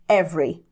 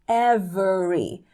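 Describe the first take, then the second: First: The E sound is swallowed and dropped. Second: The E sound is fully pronounced. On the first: "meio que engolindo o E" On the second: "Falando o E mesmo"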